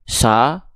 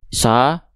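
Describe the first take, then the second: No difference in how they are said.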